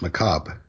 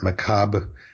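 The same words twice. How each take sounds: First: The last syllable is dropped, with no R. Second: A slight R sound is heard at the end. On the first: "often they don't pronounce the last syllable at all" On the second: "gives you some sort of a little hint of an R at the end"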